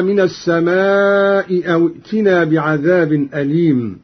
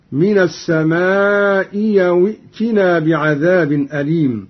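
First: Said in the usual way. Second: السماء أو as as-samaa'i-yaw; hamza turned to yaa. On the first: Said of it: "قرأ قالون بإبدال الهمزة الثانية ياء". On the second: Shown as a demonstration. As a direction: glide a y into أو after السماء. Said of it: "بإبدال الهمزة الثانية ياء، هكذا".

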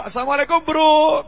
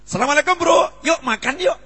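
First: Said in the usual way. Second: Bright, lifted greeting with "Yuk makan yuk" thrown in warmly; cheerful invitation. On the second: Shown as a demonstration. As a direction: greet a friend and pull them along to eat. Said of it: "Nah, keren ini". (salam ceria sambil mengajak makan)

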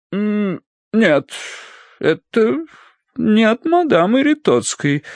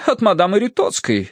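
First: High, hesitant, drawn out with pauses; puzzled drawl. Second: High, assured matron; sure of it. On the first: Mistress finds the letter is from someone else, puzzled. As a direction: trail through it in puzzlement. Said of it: "протянула она озадаченно". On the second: Mistress guesses who sent the letter, confident. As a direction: say it as a settled fact, pitched up. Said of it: "Это, без сомнения". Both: A narrator's reading.

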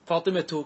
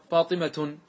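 First: فاطمة said fatimatu, with full ending vowel; فاطمة with the vowel on the final ta; pausal form. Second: Said in the usual way. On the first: Shown as a demonstration. Teacher showing the word before pausing on it, fatimatu. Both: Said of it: "كيف تقف على فاطمة".

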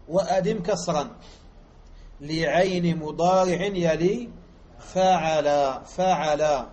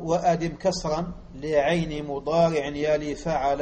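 First: Louder, slow word-by-word reading with pauses, stretching "فعل" at the end; slow explanatory reading. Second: Flowing recitation of the line in the rhythm of the metre; recited verse. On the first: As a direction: break the line apart slowly to teach it. Teacher re-reads the words slowly to explain. (قراءة بطيئة كلمة كلمة للشرح) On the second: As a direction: recite it in one rhythmic sweep. Verse recited, then read slowly. (إلقاء البيت بإيقاع متصل) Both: Shown as a demonstration.

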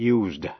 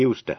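First: "used" said as yoozd with a buzzing z; simple past pronunciation; voiced z. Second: "used" said as yoost with a hissed s; voiceless s. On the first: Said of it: "phát âm là used". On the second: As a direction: say "used" with s, not z. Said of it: "đọc là used". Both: Shown as a demonstration.

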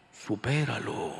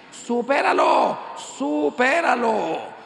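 First: Low, slow divine voice; voice from the tabernacle. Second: Loud, high, drawn-out command; emphatic shout. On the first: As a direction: intone it slowly, like God answering from the altar. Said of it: "salió una voz del sagrario que me dijo". (voz divina, grave y lenta) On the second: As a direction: cry it out slowly to the whole crowd. Preacher shouts the divine answer. (grito enfático y alargado) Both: Acted.

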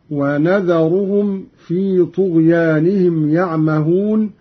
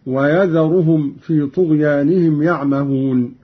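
First: "ونذرهم" starting wa-na, with a nun. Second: Said in the usual way. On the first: Shown as a demonstration. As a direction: recite "ونذرهم" as wanadharuhum. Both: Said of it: "بالنون مكان الياء".

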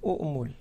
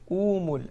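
First: أؤمل with a clear second glottal stop before the "m"; teacher stresses both hamzas in أؤمل; the original form. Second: أومل said with a long plain "oo", no hamza; teacher reads أومل with a smooth long vowel; the changed form. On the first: Teacher showing students the underlying form, with the hamza sounded. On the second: Teacher showing students the surface form, said with a long vowel. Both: Shown as a demonstration. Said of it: "أصله".

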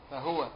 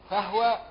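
First: "فهو" read fa-hwa, ha with sukun; "فهو" clipped to fa-hwa, no vowel on the ha; "فهو" said fa-hwa, lower. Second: "فهو" read fa-huwa, ha with fatha; "فهو" as fa-HU-wa, ha voiced with a vowel; "فهو" said fa-huwa, a higher, marked take. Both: Shown as a demonstration. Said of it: "فتح الهاء وسكونها".

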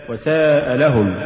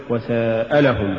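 First: Slow وساء, then لهم as its own word; correctly separate words. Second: Slow وساء لهم fused like the verb ساءلهم; wrongly merged words. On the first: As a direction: keep وساء and لهم distinct. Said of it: "وصل الكلمتين". (فصل «وساء» عن «لهم») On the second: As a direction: run وساء into لهم as one word. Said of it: "تقرأ لحنا من المساءلة". (وصل «وساء لهم» كأنها «ساءلهم») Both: Shown as a demonstration.

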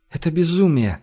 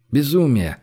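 First: Mild moan, swallowing tears; tearful moan. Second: Said in the usual way. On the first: A narrator's reading. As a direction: moan it through held-back tears. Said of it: "простонала Женя, глотая слёзы". (простонать, глотая слёзы) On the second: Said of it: "отозвался Гош".

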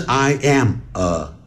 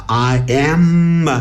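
First: "I am" and "呃" said apart with a gap; unlinked words. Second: "I am" stretched into I-ammm-ma; slow "I am", long M sliding into "uh"; linked sound. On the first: Teacher showing what it is not, "I am, 呃" unlinked. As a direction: break after "I am", then a separate uh. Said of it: "不是I am". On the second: Teacher demonstrating liaison, "I am" linked as I-amma. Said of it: "会变成I am". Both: Shown as a demonstration.

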